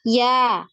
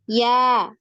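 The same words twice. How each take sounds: The two takes are said the same way.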